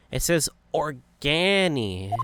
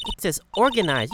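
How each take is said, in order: First: ORGANI drawn out slowly, ending in -ee; misreading. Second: ORGANIZED said in full, higher and quicker; corrected reading. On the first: Nick misreading the sign, "Organi" slow and stretched. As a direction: read "Organi" slowly, stretching the cut-off word. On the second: Maya correcting Nick, "organized" complete and higher. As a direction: read out "organized" firmly, ending in -ized. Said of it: "You just can't see the last two letters". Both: Acted.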